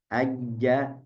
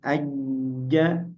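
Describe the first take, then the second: First: The middle consonant is pressed lightly, without force. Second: The middle consonant is pressed firmly against the palate. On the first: The speaker calls it wrong. "Kalau tidak tekan" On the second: The speaker calls it right. "Tapi kalau tekan sedikit"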